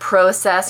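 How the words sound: It is said with a Canadian pronunciation. "she said process"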